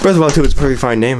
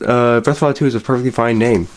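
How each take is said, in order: First: Rushed. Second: Said in the usual way. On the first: Pretend. Rushed correction after boss yells.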